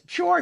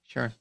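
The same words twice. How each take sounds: First: It sounds easy and agreeable. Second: It sounds flat and unenthusiastic. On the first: The person happily agrees. "could be taken as sure, yeah, no problem" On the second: The person is not keen on the plan. "Oh, wow, you're so excited"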